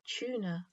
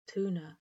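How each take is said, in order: First: It begins with a chew-like sound. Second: It begins with a plain too sound. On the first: "put a y sound after the T to make chew" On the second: "the first vowel is an oo"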